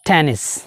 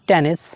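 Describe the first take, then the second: First: The t has a strong puff of air. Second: The t has no puff of air. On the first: The speaker calls it right. "It's টেনিস" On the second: The speaker calls it wrong. "It's not টেনিস"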